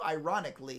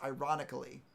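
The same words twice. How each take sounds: First: The word is said without the extra syllable. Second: The word is said with an extra syllable. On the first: This is the everyday way people say it. "is how we normally say it" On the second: This is the proper way it should be said. "it's supposed to be pronounced ironically"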